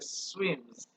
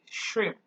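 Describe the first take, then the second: First: The word sounds like 'swims'. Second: The word sounds like standard 'shrimp'. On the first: The speaker calls it wrong. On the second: The speaker calls it right.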